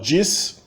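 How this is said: It is said with a São Paulo accent. "Em São Paulo"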